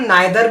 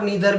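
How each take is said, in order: First: The first vowel sounds like eye. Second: The first vowel sounds like ee. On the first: "नीदर को हम नाइदर भी पढ़ सकते हैं" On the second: "और नीदर भी पढ़ सकते हैं, बोथ आर करेक्ट"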